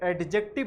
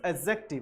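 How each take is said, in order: First: The d sound is pronounced clearly. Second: The d sound is left silent. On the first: The speaker calls it wrong. "इसे एडजेक्टिव नहीं बोलना चाहिए" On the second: The speaker calls it right. "यहां पर डी silent होता है"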